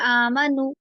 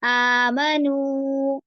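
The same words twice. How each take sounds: First: The long vowel is rushed and cut short. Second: The long vowel is held for two beats. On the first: The speaker calls it wrong. "कोई सिस्टर इसमें जल्दी ना करे आमनू ऐसे नहीं" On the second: The speaker calls it right. "दो हरका जितना लंबा करना है"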